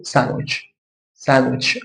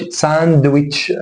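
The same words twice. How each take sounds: First: "ساندويتش" said as "san-witch", no D; silent D. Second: "ساندويتش" with a full D, "san-duh-witch"; sounded D. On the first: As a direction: drop the D from "ساندويتش". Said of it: "اكن الدي مش موجود". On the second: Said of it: "ما اقولش ساندويتش". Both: Shown as a demonstration.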